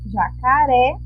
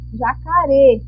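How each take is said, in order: First: The final vowel is open. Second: The final vowel is closed. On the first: "o ré está aberto" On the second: "Se ele não estivesse com acento, ficaria jacaré"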